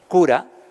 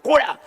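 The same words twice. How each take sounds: First: The word is said in a calm, neutral tone. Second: The word is spat out with hatred. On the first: The word is not meant as an insult. "cura es una palabra preciosa" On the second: The word is meant as an insult. "si lo dices así con odio"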